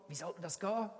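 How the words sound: It is asked in a demanding, expectant tone. The asker expects an explanation. "zuerst die Erwartungshaltung"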